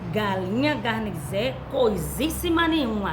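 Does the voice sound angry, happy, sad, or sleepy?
angry. It is said in an angry voice. "Com muita braveza"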